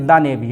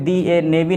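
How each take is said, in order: First: 'The' is said with a short 'thuh' vowel. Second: 'The' is said with a long 'thee' vowel. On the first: The speaker calls it right. "इसे क्या बोलेंगे, द navy" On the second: The speaker calls it wrong. "इसे दी ए navy नहीं"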